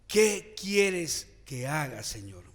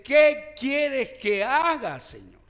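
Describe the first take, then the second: First: Said in the usual way. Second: Loud, drawn-out, high cry to the Lord; fervent slow plea. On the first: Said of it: "tenemos que preguntarle al Señor". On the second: Shown as a demonstration. Preacher shows the church how to ask, loud slow plea. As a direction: plead it slowly with full force. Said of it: "tenemos que decirle".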